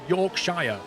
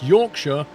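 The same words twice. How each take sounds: First: It is pronounced the way outsiders say it. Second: It is pronounced the way locals say it. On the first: The speaker calls it wrong. "it's not Yorkshire. Nobody says it like that. Apart from you guys" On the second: The speaker calls it right. "It's Yorkshire"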